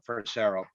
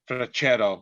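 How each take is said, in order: First: The name is pronounced the English way. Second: The name is pronounced the Italian way.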